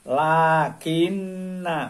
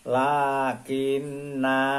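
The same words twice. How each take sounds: First: The final vowel is short and runs on. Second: The final vowel is held long at a stop. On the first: The reading continues into the next words. "Kalau diwasolkan diteruskan pembacanya" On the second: The reading stops on this word. "kalau diwakofkan tetap biasa"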